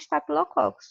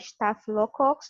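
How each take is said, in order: First: The ph is not said as an f sound. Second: The ph is said as an f sound. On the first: Other people say it this way. "tem gente que fala" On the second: This is the speaker's preferred way. "eu prefiro falar"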